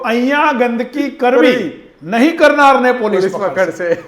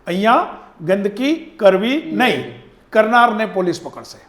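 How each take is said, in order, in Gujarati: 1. અલ્પ વિરામ 'nahi' શબ્દ પહેલાં આવે છે. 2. અલ્પ વિરામ 'nahi' શબ્દ પછી આવે છે. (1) "ભૂસીને નહીંની આગળ કરી આવ્યા" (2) "એ નહીંની પાછળ જે અલ્પ વિરામ હતું"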